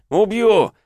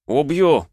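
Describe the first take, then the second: First: Much higher, louder final yell; furious scream. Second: Enraged shout. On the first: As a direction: scream the threat at full rage. Threat repeated, rising rage. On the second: Enraged threat in a fight. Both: Acted.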